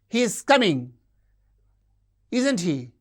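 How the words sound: The tag ends with a high fall. The speaker demands agreement. "we use a high fall demanding agreement"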